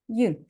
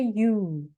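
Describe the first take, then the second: First: The vowel in 'you' is short. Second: The vowel in 'you' is long. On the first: The speaker calls it right. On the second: The speaker calls it wrong. "We don't say you"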